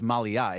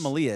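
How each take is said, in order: First: A short catch separates the last two vowels. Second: The last two vowels run together smoothly. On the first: The speaker calls it right. "M A L I apostrophe A" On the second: The speaker calls it wrong. "it's not"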